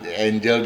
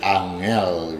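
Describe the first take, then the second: First: It is pronounced the English way, like the name. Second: It is pronounced the Indonesian way, sounding each letter. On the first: It is the person's name. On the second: It means difficult.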